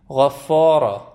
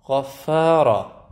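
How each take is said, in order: First: غفارا with a dark, heavy فا between غ and را; slow and loud, backing every vowel of غفارا; mispronounced heavy FA. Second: غفارا with heavy غ and را but a thin, light فا; slow and loud, switching to a front vowel on فا in غفارا; correct light FA. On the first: («غفارا» با فای درشت، به اشتباه) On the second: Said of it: "فا ممکنه یه دفعه حواستون نباشه". («غفارا» با فای نازک بین دو حرفِ درشت) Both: Shown as a demonstration.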